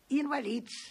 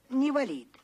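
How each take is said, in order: First: The word begins with an 'in' sound. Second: The word begins with a 'ne' sound. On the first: This is the proper form of the word. The speaker calls it right. "а надо бы сказать «инвалид»" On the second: This is how common people alter the word. The speaker calls it wrong. "говорят «невалид»"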